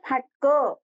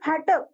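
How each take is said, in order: First: The final syllable carries extra stress. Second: The final syllable carries no extra stress.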